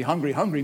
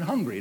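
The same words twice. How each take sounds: First: "hungry, hungry" with the first one stressed; doubled for emphasis. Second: Said in the usual way. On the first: Shown as a demonstration. Preacher showing emphasis by repetition, stressed "hungry, hungry". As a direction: run "hungry, hungry" together as one emphatic term. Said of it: "Hungry, hungry means I'm really hungry". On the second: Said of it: "means something different than hungry".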